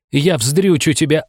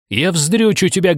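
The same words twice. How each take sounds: First: Slow, high, seething threat; raging woman vows revenge, slow and high; furious threat. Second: High, seething repeated threat; raging woman repeats her vow, high; furious threat. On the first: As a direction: spit the threat at him slowly. Enraged woman threatens narrator. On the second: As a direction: hammer the same threat home. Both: Acted.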